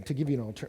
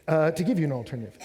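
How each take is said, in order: First: Said in the usual way. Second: Louder, faster restart with punch on "give"; doing it properly. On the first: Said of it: "well, let me, let me just do it". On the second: Shown as a demonstration. Preacher restarting his point to the congregation, louder and faster. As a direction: relaunch the line with conviction and hit "give". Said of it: "let me, let me just do it".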